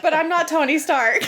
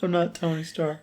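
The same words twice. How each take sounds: First: Whimpering. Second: Mock whimper, softer and high. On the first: Retold or imitated. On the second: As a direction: whine it like a sulking kid. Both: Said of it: "He said it all whimpering".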